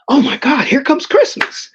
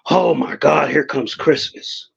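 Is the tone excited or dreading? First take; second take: excited; dreading. First: It sounds excited and happy. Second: It sounds weary and full of dread. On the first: Christmas is something to look forward to. "when I was younger" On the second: Christmas means spending money one does not have. "this is how it goes now"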